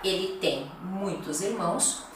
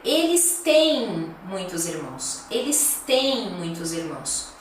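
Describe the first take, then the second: First: "tem" short, no nasal lengthening; short "tem" as singular; singular "Ele tem", short vowel. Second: "têm" with a longer e. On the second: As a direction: stretch the e in "têm" a little. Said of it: "É um pouquinho mais longo esse E". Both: Shown as a demonstration.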